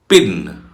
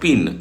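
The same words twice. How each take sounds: First: The p bursts out with a puff of air. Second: The p is soft, without a puff of air. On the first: The speaker calls it right. "it's pin" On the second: The speaker calls it wrong. "No, it's not pin"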